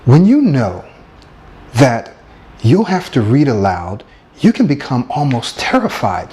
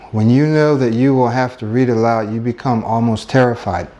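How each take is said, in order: First: It is read dramatically, with emotion. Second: It is read flatly, without expression.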